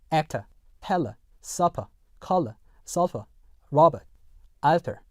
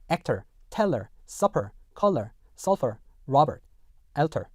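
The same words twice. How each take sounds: First: British accent, actor, teller, supper ending in a bare schwa; British non-rhotic. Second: American accent, R-coloured endings in actor, teller, supper. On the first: Teacher contrasts with American, British R-less endings. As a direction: end each of actor to alter on "uh", British, no R. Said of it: "영국 영어에서는요". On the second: Teacher reads example nine, American R endings. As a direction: end each of actor to alter on an American "er". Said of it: "미국 영어에서는요". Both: Shown as a demonstration.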